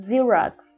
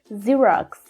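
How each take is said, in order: First: The word begins with a 'z' sound. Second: The same.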